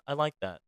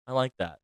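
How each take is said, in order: Both takes have the same delivery.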